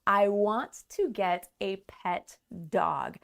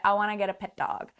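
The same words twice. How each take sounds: First: Each word is said separately and fully. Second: The words are reduced and run together. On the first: "That is so clear, so easy to understand" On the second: "a native speaker is not going to say it this way. They're going to say"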